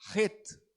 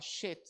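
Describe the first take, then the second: First: The word begins with a harsh throat sound. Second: The word begins with a sh sound. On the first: The speaker calls it right. "tem esse som de um R forte. Então a pronúncia correta é Het" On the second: The speaker calls it wrong. "ele não é o som do nosso C H, que é um som do X, né? Então alguns vão falar shit, não"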